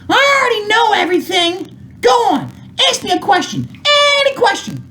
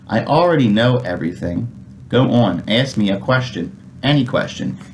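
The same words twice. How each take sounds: First: It is read lively in a character voice. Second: It is read flatly in a plain voice.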